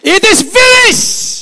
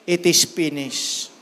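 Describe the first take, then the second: First: It is shouted loudly, with force. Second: It is said quietly, without force.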